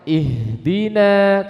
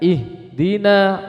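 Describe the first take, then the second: First: The h sound flows until the d. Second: The h sound breaks off before the d. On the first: The speaker calls it right. "Menyempurnakannya, yaitu rokhwahnya" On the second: The speaker calls it wrong. "enggak bertemu rokhwahnya, alirannya, sehingga terpotong. Maka ini salah"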